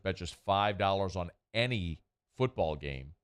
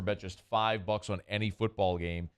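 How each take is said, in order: First: It is said slowly. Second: It is said at a normal pace.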